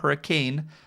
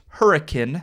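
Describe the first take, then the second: First: It is said like the ordinary storm word. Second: It is said the local way for the town. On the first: This is how the storm word is said. The speaker calls it wrong. "not hurricane" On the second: This is how people from the area say the town name. The speaker calls it right. "it is pronounced Hurricane"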